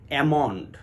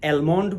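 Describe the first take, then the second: First: It starts with a flat 'a' and no L. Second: It starts with a flat 'a' and a clear L. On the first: The speaker calls it right. "বিশুদ্ধ উচ্চারণ হবে অ্যামন্ড" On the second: The speaker calls it wrong. "অনেকেই অ্যালমন্ড বলে"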